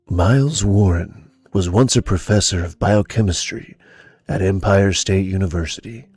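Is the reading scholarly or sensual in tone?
sensual. It is read in a slow, sensual, seductive tone. The speaker calls it wrong. "Listen to the sensuality"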